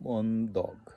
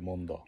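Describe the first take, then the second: First: The word ends with a clear g sound. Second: The word ends in an open vowel, no g. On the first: It is the full careful form. "Specific উচ্চারণটা হলো মন্দগ" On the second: It is the casual everyday form. "সংক্ষেপে অনেক সময় বলে মন্দা"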